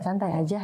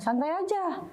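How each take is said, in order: First: It is said in a calm, relaxed tone. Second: It is said forcefully, in a confrontational tone. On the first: It is really fine, no problem. "dengan tone of voice yang santai" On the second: It is a challenge to start a fight. "ada power"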